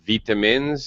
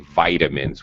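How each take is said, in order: First: It is said with a British pronunciation. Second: It is said with an American long I. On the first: "That's just British pronunciation" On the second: "Americans say vitamins with a long I"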